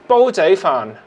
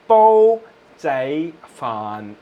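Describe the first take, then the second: First: It is said at normal speed. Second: It is said slowly.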